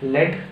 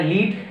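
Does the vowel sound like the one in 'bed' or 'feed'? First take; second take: bed; feed. First: The vowel is short, as in 'bed'. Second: The vowel is long, as in 'feed'.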